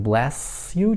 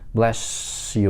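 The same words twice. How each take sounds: First: The s and y sounds stay clearly separate. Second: The s and y merge into a sh sound. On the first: "чистый звук" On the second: "Вот это как раз пример palatalization"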